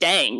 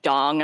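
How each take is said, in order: First: The vowel is an 'a' as in 'cat'. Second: The vowel is an 'o' sound. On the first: The speaker calls it right. "no, it's just "dang."" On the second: The speaker calls it wrong. "There's no O in there"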